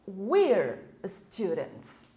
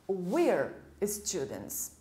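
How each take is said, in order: First: "We are" is joined into one short syllable. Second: "We are" is joined into one short syllable.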